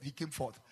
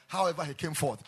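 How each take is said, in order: First: Said in the usual way. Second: Louder, stressed restatement; emphatic loud retake. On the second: Shown as a demonstration. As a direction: hammer the line again.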